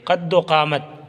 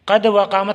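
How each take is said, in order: First: The 'o' is joined onto 'qad' as 'qaddo'. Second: The 'va' is said as a separate word. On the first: The speaker calls it right. "वाव को दाल के साथ मिला के पढ़िएगा" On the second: The speaker calls it wrong. "कद व कामत ना पढ़िएगा"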